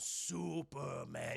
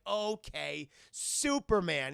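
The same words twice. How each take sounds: First: Slow, low robot drawl; giant robot. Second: Put-on drawn-out, louder kid's reply; boy playing along. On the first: Retold or imitated. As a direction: draw it out low like a huge machine. Giant naming itself, retold. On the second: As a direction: imitate a boy accepting the game. Boy answering giant, retold.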